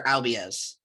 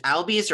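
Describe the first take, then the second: First: "Albies" said as AL-bee-uz; "Albies" in three syllables, AL-bee-uz. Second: "Albies" said as AL-beez; "Albies" in two syllables, AL-beez. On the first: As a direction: split the end of "Albies" into bee-uz. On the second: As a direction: end "Albies" on a plain -beez. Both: Shown as a demonstration. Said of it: "is it Albies or Albies?".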